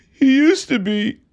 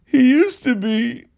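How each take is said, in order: Both takes have the same delivery.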